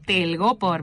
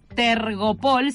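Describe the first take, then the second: First: The L sound comes before the R sound. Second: The R sound comes before the L sound. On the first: The speaker calls it right. "sino telgopor" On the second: The speaker calls it wrong. "no es tergopol"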